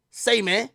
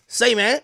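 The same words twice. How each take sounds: First: Doctor's laid-back greeting. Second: Doctor's laid-back greeting, again through a laugh. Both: Retold or imitated. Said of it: "that's exactly how my doctor talk".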